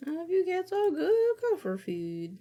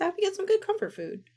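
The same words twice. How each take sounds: First: High sweet voice. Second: Very high, fast sweet voice; cute high voice. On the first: Repeats chat line again. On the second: Streamer answers chat about snacking, high and cute. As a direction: squeak it out sweetly. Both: Pretend.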